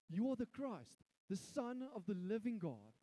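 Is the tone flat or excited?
excited. It is said in an excited tone.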